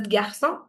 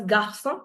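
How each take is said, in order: First: GARÇON with a softened G, "gyar-son"; other pronunciation variant. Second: GARÇON with a hard G, "gar-son"; one pronunciation variant. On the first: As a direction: say GARÇON with a y-glide after G. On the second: Teacher compares two accepted ways for class, hard-G pronunciation. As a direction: say GARÇON with plain hard G and throaty R. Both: Shown as a demonstration. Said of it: "Some people pronounce it as".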